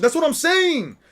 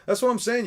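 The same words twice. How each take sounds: First: High, loud exclaim on saying; emphatic agreement. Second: Said in the usual way. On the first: Real, not acted. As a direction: shout your agreement at the screen. Agreeing with the show.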